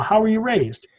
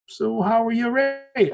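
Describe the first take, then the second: First: Said in the usual way. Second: A light, slow hint of an Irish accent; Irish cab driver. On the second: Belfast cab driver quizzing his passenger, light Irish accent. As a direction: slip briefly into the cabbie's Irish accent, drawn out. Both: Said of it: "I'm not gonna do his Irish accent".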